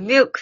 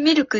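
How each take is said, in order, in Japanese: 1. 英語風に言ってるよ。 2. カタカナ風に言ってるよ。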